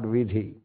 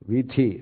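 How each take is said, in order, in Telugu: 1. మధ్య హల్లు స్వరసహిత 'dh' ధ్వని. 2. మధ్య హల్లు స్వరరహిత 'th' ధ్వని. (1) "they stopped pronouncing it as tha ... they are starting pronouncing it as vidhi" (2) "So here is the same meaning, vithi, not vidhi"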